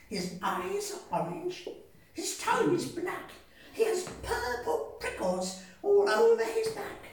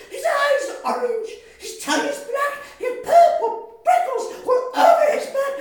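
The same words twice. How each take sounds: First: High mouse voice, steady and teasing; mouse describing. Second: Fast, very high and loud; panicked mouse. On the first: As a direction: list it off with relish. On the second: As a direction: rattle it off in terror. Mouse panics at real monster. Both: Acted.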